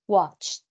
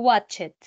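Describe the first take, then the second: First: The ending is a plain t sound. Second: The ending is an extra syllable. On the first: The speaker calls it right. "Yo digo watch y de inmediatamente T" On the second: The speaker calls it wrong. "Yo no digo watch it. Mm, mm, no está bien pronunciado"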